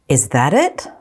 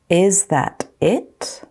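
First: The phrase is spoken at normal speed. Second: The phrase is spoken slowly. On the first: "Then I'll say them at normal speed" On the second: "I'm going to say them slowly first"

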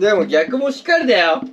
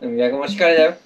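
First: It is lively, with a strong ending. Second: It is subdued, with the ending fading out. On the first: The speaker calls it wrong. "違う、元気すぎだ。最後もっとトーンダウンして。" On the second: The speaker calls it right. "そうそうそうそういけるやん。"

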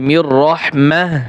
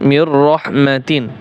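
First: The last word ends in a soft h sound. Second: The last word ends in a full -atin ending. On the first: The reader stops at this point. "যদি ওয়াকফের নিয়ম আদায় করেন তাহলে" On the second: The reading continues without stopping. "আর যদি যেভাবে আছে সেভাবে পড়তে চান"

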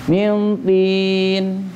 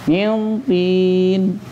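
The two takes are said the same way.

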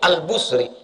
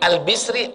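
First: The vowel after the b is u. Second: The vowel after the b is i. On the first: "Tiga-tiga betul" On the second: "Tiga-tiga betul"

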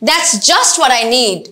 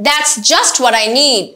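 No difference in how they are said.

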